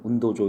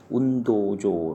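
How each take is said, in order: First: The vowels are cut short. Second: The vowels are held long. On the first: The speaker calls it wrong. "이렇게 하면 안 됩니다" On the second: The speaker calls it right. "운도할 때 거기도 도가 또 길거든요. 운도조 이렇게 해서"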